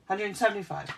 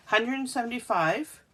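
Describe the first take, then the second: First: Said in the usual way. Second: "Hundred" lifted higher and louder to confirm; confirming emphasis. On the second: Shown as a demonstration. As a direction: repeat it firmly to confirm. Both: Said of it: "let me double check".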